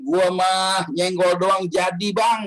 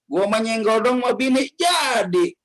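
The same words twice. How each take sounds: First: Slow, drawn-out bragging; boastful husband quote. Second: Higher, slow smug bragging; boastful husband quote. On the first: Husband boasting to the preacher about his pregnant wife, slow smug drawl. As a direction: brag it out lazily, stretching the words. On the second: Husband repeats his boast to the preacher, higher slow smug drawl. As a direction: drag out the brag, pitched up. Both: Retold or imitated.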